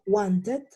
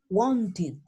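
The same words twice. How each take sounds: First: The ending is said like its spelling. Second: The ending is said as an 'id' sound. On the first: The speaker calls it wrong. "yo no digo wanted" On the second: The speaker calls it right. "yo digo wanted. ¿Ya? id"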